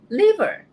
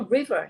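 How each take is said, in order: First: The word begins with an L sound. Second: The word begins with an R sound. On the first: The speaker calls it wrong. "Not liver" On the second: The speaker calls it right. "it's a river"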